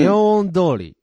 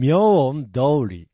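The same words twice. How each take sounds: First: 明恩通り without a dip between the parts; first intonation. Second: 明恩通り very slow, in separate parts; 明恩通り lower and stretched, split in two; second intonation. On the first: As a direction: say 明恩通り in one level run. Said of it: "発音は". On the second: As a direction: draw out 明恩, then a separate 通り. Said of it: "発音わかんないんですよね". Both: Shown as a demonstration.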